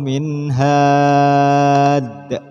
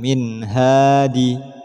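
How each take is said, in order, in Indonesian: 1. Kata ini berakhir pada konsonan d. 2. Kata ini berakhir dengan vokal i pendek. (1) "maka menjadi" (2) "Tidak boleh dibaca"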